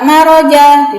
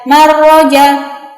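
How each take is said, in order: First: The r sound is single and short. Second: The r sound is held doubled. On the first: The speaker calls it right. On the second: The speaker calls it wrong.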